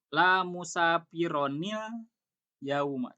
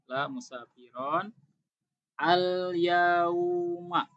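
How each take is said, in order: First: The nun is sounded, linking into the next word. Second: The words are said separately without linking.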